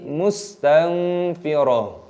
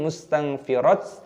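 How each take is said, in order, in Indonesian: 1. Kata ini berakhir dengan bunyi 'h' lembut. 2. Kata ini berakhir dengan bunyi 't' pendek. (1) "tapi mustanfirah" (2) "ataupun mustanfirat"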